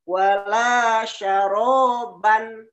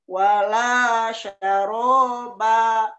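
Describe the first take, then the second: First: The phrase ends with an n sound. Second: The phrase ends with a long vowel.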